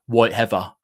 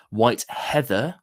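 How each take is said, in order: First: "Heather" said with a v for th, as "Hevva"; own-accent pronunciation. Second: "Heather" slowly, with a clear th; careful pronunciation. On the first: Host replaying how their actual accent says the whisky name, own-accent pronunciation. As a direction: say "Heather" loosely as "Hevva", punched louder. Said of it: "that's my actual accent, that is". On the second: Host correcting their own accent on the whisky name, careful pronunciation of "Heather" with th. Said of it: "I said that proper with my". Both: Shown as a demonstration.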